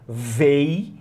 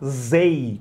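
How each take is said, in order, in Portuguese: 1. A palavra começa com o som de 'v'. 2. A palavra começa com o som de 'z'. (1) "véi com V de velho" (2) "zei com Z de zebra"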